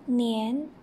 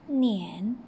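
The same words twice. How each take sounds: First: The pitch rises from middle to high. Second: The pitch dips low, then rises.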